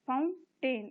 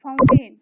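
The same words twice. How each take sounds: First: "fountain" as two separate beats; split into syllables. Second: Said in the usual way. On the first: Shown as a demonstration. Teacher dividing words for the class, "fountain" broken in two. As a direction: pause between फाउं and टेन in "fountain". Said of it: "इनको syllables में divide करना है".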